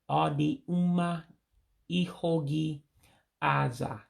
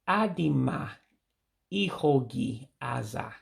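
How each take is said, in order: First: The first two words are said separately. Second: The first two words are run together. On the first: This is the Central Igbo form. "that Central Igbo way" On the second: This is the common everyday form. "the common pronunciation"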